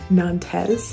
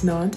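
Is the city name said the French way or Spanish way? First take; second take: Spanish; French. First: The name is said the Spanish way. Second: The name is said the French way. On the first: The speaker calls it wrong. "not Nantes. Clearly my Spanish is not going to help me" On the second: The speaker calls it right. "I just learned that it's Nantes"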